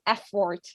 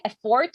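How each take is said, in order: First: The stress is on the first syllable. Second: The stress is on the second syllable. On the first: The speaker calls it right. "It's effort" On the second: The speaker calls it wrong. "you put the accent on the O"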